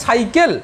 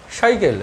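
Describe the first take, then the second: First: Said in the usual way. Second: সাইকেল with a palatal "sh" for its first sound; tongue on palate. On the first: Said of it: "জিভটা এসে দাঁতে লাগছে". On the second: Shown as a demonstration. Teacher joking that it adds style, সাইকেল said as "shaikel". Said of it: "জিভটাকে তালুতে লাগিয়ে উচ্চারণ করো".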